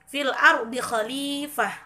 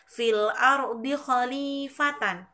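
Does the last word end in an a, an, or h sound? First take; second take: h sound; an sound. First: The last word ends with an h sound. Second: The last word ends with an n sound.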